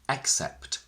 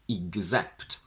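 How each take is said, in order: First: The stress is on the first syllable. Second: The stress is on the second syllable. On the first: "If we put it on the first syllable" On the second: "If we keep the stress on the second syllable"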